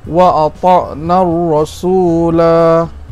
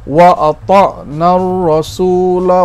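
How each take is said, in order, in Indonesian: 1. Vokal akhirnya dibaca panjang. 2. Vokal akhirnya dibaca pendek. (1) "kalau kita wakaf" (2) "Kalau kita sambung terus ke sebelah, kita baca pendek"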